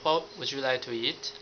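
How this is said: It is said in a gentle, kind voice.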